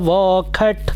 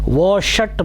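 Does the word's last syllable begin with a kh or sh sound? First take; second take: kh; sh. First: The last syllable begins with a kh sound. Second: The last syllable begins with an sh sound. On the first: This is the habitual Vedic-style reading. "वैदिक उच्चारण वोखट इस तरह से कभी कभी जो habitual है" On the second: This is the reading one should use. "वोषट भी पढ़ सकते हैं, वोषट ही पढ़ेंगे"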